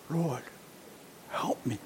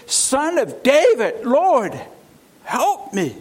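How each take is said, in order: First: Much softer, lower broken plea; pained plea. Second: Crying out. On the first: Kneeling woman begging Jesus, soft and pained. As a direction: barely get the words out through the pain. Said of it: "You can hear the pain in her voice". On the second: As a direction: cry out, begging him to notice you. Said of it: "comes to him and says". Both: Acted.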